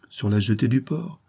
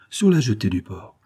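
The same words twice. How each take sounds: First: "Sur la jetée du port?" asked, pitch rising on "du port"; questioning rise. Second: "Sur la jetée du port." stated, pitch falling from "Sur"; settled fall. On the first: Lover asks where to meet, rising question. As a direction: check the place, voice lifting at the end. Asking the meeting place. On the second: Swimmer confirms the meeting place, falling statement. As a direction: confirm it firmly, closing fall. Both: A narrator's reading.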